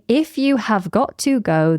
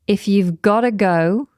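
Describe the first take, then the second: First: Every word is said in full, uncontracted. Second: You have is contracted; got to becomes gotta. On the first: The speaker calls it wrong. "rather than saying" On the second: The speaker calls it right. "put words got to together to make gotta"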